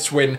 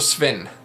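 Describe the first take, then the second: First: The name is said with a W sound. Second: The name is said with a V sound. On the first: "I say it as if it's S W E N" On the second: "or Sven. It could be Sven"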